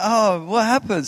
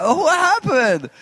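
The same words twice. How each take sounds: First: Higher, slow puzzlement repeated; dazed wonder, a little calmer; bewildered. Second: Much higher, slow, drawn-out puzzlement; mock dazed wonder; bewildered. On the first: Retold or imitated. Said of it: "And I was like". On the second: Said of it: "I was like".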